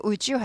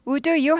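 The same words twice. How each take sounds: First: "would you" run together as "u-jyu"; linked pronunciation. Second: "Would you" as separate "u-du yu"; unlinked pronunciation. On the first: Teacher showing learners the linked "would you", said "u-jyu". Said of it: "would you 발음이 나게 되죠". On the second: Teacher showing what to avoid, "Would you" unlinked as "u-du yu". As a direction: keep a D sound in "Would you", no J glide. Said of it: "do 발음이 나지 않고". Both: Shown as a demonstration.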